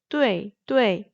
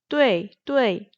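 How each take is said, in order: No difference in how they are said.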